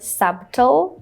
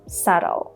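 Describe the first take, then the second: First: A B sound is pronounced. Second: The B is silent. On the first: The speaker calls it wrong. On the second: The speaker calls it right.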